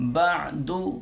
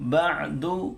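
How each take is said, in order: Both takes have the same delivery.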